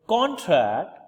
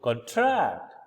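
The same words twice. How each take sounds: First: First syllable of contract hit high and loud; stress on CON in contract. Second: Second syllable of contract drawn out slowly; stress on TRACT in contract. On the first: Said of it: "we are focusing on the first syllable". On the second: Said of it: "we put stress in the second syllable". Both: Shown as a demonstration.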